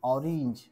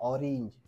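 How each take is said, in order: The two takes are said the same way.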